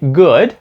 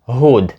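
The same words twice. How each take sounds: First: It begins with a hard G sound. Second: It begins with a breathy H-like sound. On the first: The speaker calls it right. "в слові «good»" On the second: The speaker calls it wrong. "вони кажуть «good»"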